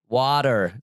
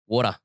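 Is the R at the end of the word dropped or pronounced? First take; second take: pronounced; dropped. First: The final R sound is strongly pronounced. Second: The final R is dropped, ending in ah. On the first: "an American would say water, like really emphasize the E R" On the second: "instead of saying E E R, we just put an A at the end"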